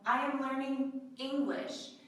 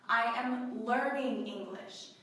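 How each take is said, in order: First: The stress falls on the word English. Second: The stress falls on the word learning. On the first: It specifies which language is being learned. "This is to specify" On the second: The speaker is still studying and not yet fluent. "you are still learning"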